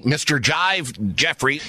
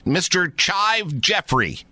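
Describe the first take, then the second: First: Jive starting with J, as corrected. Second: Chive said slowly with a clear CH. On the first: Host adopting the guest's correction, Jive with J. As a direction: say Jive with a J in place of CH. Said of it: "my name is pronounced Jive". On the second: Host checking the guest's name, careful slow Chive with CH. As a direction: say Chive slowly, starting like "church". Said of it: "Am I correct in saying that". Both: Real, not acted.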